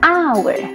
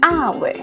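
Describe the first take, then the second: First: The word starts with a vowel, h silent. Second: The same.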